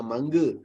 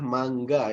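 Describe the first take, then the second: First: Mangga said the wrong way with the g dropped; the mistaken mangga, ng with no g; wrong pronunciation. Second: Mangga with a clear hard g after the ng; correct pronunciation. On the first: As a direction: mangga as the error to avoid. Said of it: "bukan mangga". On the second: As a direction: say mangga the standard Malay way. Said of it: "sebutan yang betulnya adalah mangga". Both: Shown as a demonstration.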